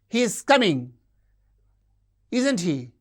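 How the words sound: The tag ends with a high fall. The speaker demands agreement. "we use a high fall demanding agreement"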